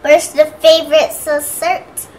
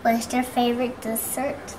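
First: It is said loudly. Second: It is said softly.

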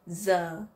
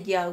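First: The word is said in a northern accent. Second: The word is said in a southern accent. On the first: "So in the north, you would hear that slightly different" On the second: "But in the south, we just say yo. We pronounce it like a D"

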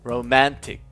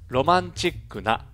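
First: The last syllable starts with a plain t sound. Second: The last syllable starts with a ch sound. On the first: It is the English word. "後半での英語の発音の際、実際に口にしてみて自分の発音がチとなっていないかどうかセルフチェック" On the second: It is the Japanese loanword form. "前半で日本語訳の説明としてカタカナ語を導入します"

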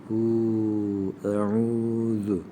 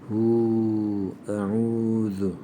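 Both takes have the same delivery.

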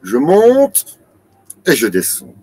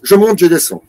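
First: A brief pause separates the two phrases. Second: The two phrases run together without a pause. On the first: The speaker calls it right. "Non, c'est" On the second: The speaker calls it wrong. "on ne peut pas faire"

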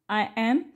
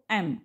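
First: Two separate full words are said. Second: The words merge into one short syllable.

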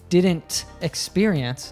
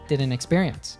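First: The T is pronounced and the words are separate. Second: The T is dropped and the words are joined. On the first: "Instead of saying" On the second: "the T does in fact drop completely, and the two words connect"

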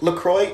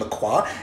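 First: The name is said with an English pronunciation. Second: The name is said with a French pronunciation. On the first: This is how the company wants it said. "the company LaCroix insisting that it's pronounced LaCroix" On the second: This is how the French word is said. "the French pronunciation"

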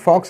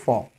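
First: The final x sound is pronounced. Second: The final x sound is silent. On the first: The speaker calls it wrong. "This is not फॉक्स" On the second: The speaker calls it right. "एक्स silent है"

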